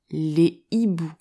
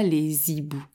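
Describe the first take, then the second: First: No linking sound comes before the second word. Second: A linking z sound comes before the second word. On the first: The speaker calls it right. "tu diras" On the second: The speaker calls it wrong. "et pas"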